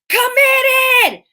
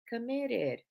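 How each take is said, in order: First: The word is said loudly and clearly. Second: The word is said quietly and weakly. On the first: The person sounds truly committed. The speaker calls it right. "I can hear her over the music. It's clear, it's enunciated" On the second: The person does not sound committed. The speaker calls it wrong. "I don't believe you"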